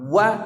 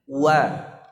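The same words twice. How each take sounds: First: It is said forcefully and heavily. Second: It is said softly and lightly. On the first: The speaker calls it wrong. "jangan kuat-kuat. Wa tidak" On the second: The speaker calls it right. "ucapkan dengan lembut"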